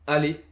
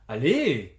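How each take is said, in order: First: It sounds like calm agreement. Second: It sounds pleasantly surprised.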